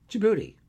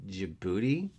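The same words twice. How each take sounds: First: "Djibouti" punched high and loud, then falling; triumphant answer. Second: "Djibouti" rising at the end as a question; questioning repeat. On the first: Acted. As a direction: deliver "Djibouti" as the emphatic answer. Answers his own capital question. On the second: A narrator's reading. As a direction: echo "Djibouti" back with a questioning lift. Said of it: "Casey repeated".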